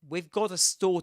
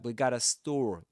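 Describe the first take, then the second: First: The 've' sound after 'we' is clearly heard. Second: The 've' sound after 'we' is dropped entirely.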